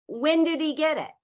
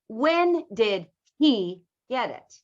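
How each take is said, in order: First: The h in he is dropped. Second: The h in he is pronounced. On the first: "We drop H's. So if I said" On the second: "I am not saying"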